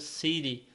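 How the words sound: It is said in an American accent. "Em inglês americano"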